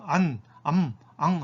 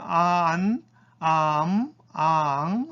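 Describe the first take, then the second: First: 안, 암, 앙 each as one short syllable; Korean final-consonant style. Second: 아안, 아암, 아앙 stretched, the nasal on its own beat; full beat for final nasal. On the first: Teacher contrasts the Korean way, short one-syllable 안, 암, 앙. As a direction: close 안, 암, 앙 straight onto the final consonant. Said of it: "우리처럼". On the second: Teacher demonstrates Japanese final nasals, drawn-out 아안, 아암, 아앙. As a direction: draw each of 아안, 아암, 아앙 out over two beats. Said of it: "이렇게 한 박자로 발음해야 돼요". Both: Shown as a demonstration.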